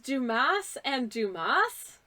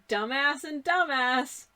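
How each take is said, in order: First: The name is said with a silent final s. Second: The name is said like the English word dumbass. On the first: This is how the company name is really meant. The speaker calls it right. "I'm assuming it's Dumas and Dumas" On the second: This is how an English reader would take the spelling. The speaker calls it wrong. "when you're pronouncing it like an English speaker"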